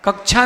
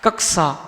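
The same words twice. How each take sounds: First: The middle consonant is not a k-plus-sh blend. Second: The middle consonant is a k-plus-sh blend. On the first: The speaker calls it wrong. "कक्षा नहीं" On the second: The speaker calls it right. "छा को का और शा मिला हुआ है"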